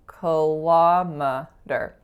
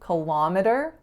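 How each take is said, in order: First: The stress is on the second syllable. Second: The stress is on the first syllable. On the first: This is the American way of saying it. "schwa, winner, schwa" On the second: This is the Canadian way of saying it. "in the Canadian version, ki is the winner"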